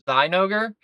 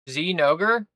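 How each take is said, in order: First: The first syllable rhymes with 'die'. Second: The first syllable does not rhyme with 'die'. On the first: The speaker calls it right. "That sounds like you know, that sounds like die" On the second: The speaker calls it wrong. "like Xenoger sounds lame"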